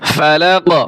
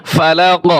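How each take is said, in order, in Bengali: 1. শব্দটি শুধু q ব্যঞ্জন দিয়ে শেষ হয়। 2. শব্দটি শুধু q ব্যঞ্জন দিয়ে শেষ হয়।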